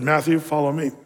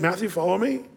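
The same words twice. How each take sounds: First: It is said firmly and commandingly, with authority. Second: It is said gently and warmly, with a smile.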